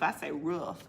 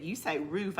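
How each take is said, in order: First: "roof" with the short vowel of "foot"; retold pronunciation. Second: "roof" with the long oo of "food"; retold pronunciation. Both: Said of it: "when they said".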